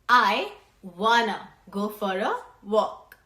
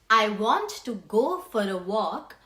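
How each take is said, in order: First: The words want to are reduced to wanna. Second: The words want to are said in full. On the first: "which will become" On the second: "Another example can be"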